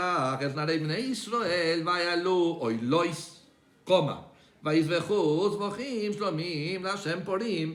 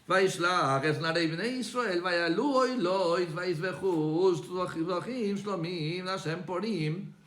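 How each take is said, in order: First: There is a pause after 'olot'. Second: There is no pause after 'olot'.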